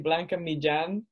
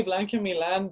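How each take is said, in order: First: "Millán" said the Spanish way, mee-JAHN; Spanish pronunciation. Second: "Milan" said with a plain l; "Milan" with an l sound, no Spanish ll; Americanized pronunciation. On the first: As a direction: pronounce "Blanca Millán" as in Spain, ll like a j. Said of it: "what's the actual Spanish pronunciation sound like". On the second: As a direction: pronounce "Blanca Milan" the anglicized way, like the city Milan. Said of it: "do they get it wrong too". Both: Shown as a demonstration.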